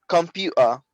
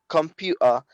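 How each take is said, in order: The two takes are said the same way.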